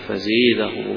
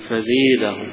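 First: The long vowel is tilted toward an e sound. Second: The long vowel is tilted toward an e sound.

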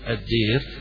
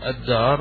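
First: The long vowel is tilted toward e. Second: The long vowel is a pure open a. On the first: "يقول فيها يقول الدير" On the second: "الدار والدير قراءتان فيها"

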